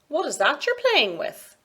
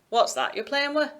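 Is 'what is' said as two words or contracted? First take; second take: two words; contracted. First: It says 'what is' as two separate words. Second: It says 'what is' contracted into 'what's'. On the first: The speaker is talking to a young child. "we use clearer, more distinct pronunciation" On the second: The speaker is talking in an ordinary way. "rather than"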